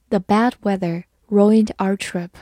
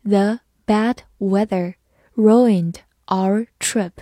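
First: Said in the usual way. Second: "The bad weather ruined our trip" slowly, word by word; slow reading. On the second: Shown as a demonstration. Teacher demonstrates "The bad weather ruined our trip" to learners, slow reading. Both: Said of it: "慢慢来读".

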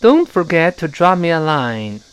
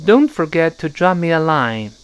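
First: Don't forget, both t sounds dropped; slow, careful, no t release; unreleased t. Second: Don't forget with the t in Don't and forget held and not released; slow, swallow every t before a consonant; slow model reading, t not exploded; unreleased t. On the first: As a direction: repeat model, t silent. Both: Shown as a demonstration. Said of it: "那我们读一下这个".

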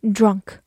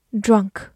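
No difference in how they are said.

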